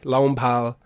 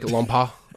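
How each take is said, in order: First: The name ends with a clear final L sound. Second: The name ends without a final L sound. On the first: This is an anglicised pronunciation. "It's Lompal to me" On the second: This is a guess at the original pronunciation. "I'm sure it's, like, Lompa or something like that"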